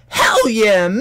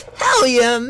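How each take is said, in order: First: High, loud "Hell yeah"; excited shout. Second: Much higher and louder "Hell yeah"; all-out shout. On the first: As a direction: yell it out with excitement. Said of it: "And I was like". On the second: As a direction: hold nothing back, scream it. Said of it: "I'm not holding anything back". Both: Retold or imitated.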